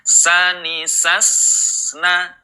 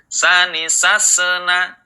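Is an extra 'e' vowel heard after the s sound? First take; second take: no; yes. First: The s ends cleanly with no added vowel. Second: An extra e vowel follows the s sound. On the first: The speaker calls it right. "ini yang upayakan dihilangkan" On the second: The speaker calls it wrong. "ada suara e di akhirnya"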